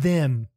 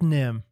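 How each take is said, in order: First: The word begins with a TH sound. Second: The word begins with an N sound. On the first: The speaker calls it right. "no, you want to play with them" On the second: The speaker calls it wrong. "instead of saying those, she says nose"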